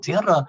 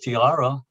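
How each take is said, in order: First: It is said the Spanish way, rolled R. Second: It is said the English way, like tiara.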